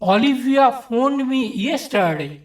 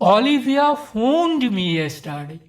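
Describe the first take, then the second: First: The stress falls on the word yesterday. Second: The stress falls on the word phoned. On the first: The point is when the call happened. "চতুর্থ ক্ষেত্রে কখন ফোন করেছিল সেই সময়ের উপর জোর দেওয়া হয়েছে।" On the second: It was a phone call, not another action. "দ্বিতীয় ক্ষেত্রে ফোন শব্দটির উপর জোর দেওয়া হয়েছে।"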